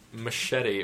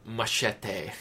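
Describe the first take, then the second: First: The word is said plainly, without exaggeration. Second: The word is said with exaggerated, over-careful pronunciation.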